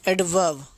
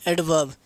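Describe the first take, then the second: Both takes have the same delivery.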